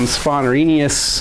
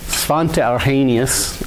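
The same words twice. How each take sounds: First: The name is pronounced with English sounds. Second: The name is pronounced with Swedish sounds.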